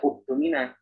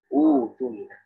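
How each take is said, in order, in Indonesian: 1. Kata ini dimulai dengan hamzah setelah vokal. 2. Kata ini dimulai dengan vokal panjang, tanpa hamzah.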